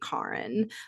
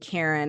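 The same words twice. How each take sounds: First: The name is pronounced in a deliberately altered way. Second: The name is pronounced in its usual way. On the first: "I say Karen" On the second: "instead of saying Karen"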